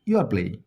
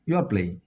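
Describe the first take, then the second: No difference in how they are said.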